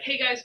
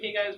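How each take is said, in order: First: It is said in an excited, energetic tone. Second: It is said in a relaxed, laid-back tone. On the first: The day will be great. "I always like to start off the day by having something exciting" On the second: The day is just for fun. "sometimes you can have a more like laid back approach"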